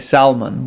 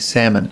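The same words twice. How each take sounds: First: The L is sounded in the word. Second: The L is silent in the word. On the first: "We don't say salmon" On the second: "we say salmon. ... You don't pronounce the L"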